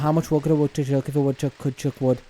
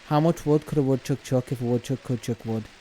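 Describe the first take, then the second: First: It is said at a faster pace. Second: It is said at a normal pace.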